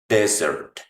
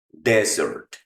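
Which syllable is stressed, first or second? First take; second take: first; first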